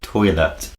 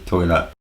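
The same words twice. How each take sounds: First: The final T is clearly pronounced. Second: The final T is replaced by a glottal stop. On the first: This is the posh Oxford way. "Oxford English is toilet" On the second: This is the common everyday way. "Common English is toilet"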